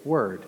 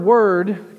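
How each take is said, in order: First: Said in the usual way. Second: "word" said louder and higher, weighty; stressed word. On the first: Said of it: "than what we say, word". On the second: Shown as a demonstration. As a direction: lean hard on "word". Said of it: "so much more than what we say".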